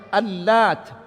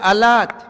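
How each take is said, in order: First: The L sound is doubled and held longer. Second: The L sound is single and short. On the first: It names one who mixed ground wheat for pilgrims. "pakai tasydid" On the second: It names an inscribed rock near Taif.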